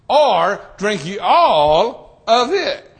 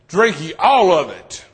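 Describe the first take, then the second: First: The stress falls on the word ye. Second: The stress falls on the word all. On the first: "It just really depends on where you want to put your emphasis" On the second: "like every drop out of it"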